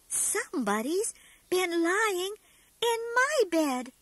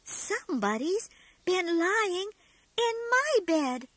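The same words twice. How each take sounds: First: It is said in a medium-sized voice. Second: The same.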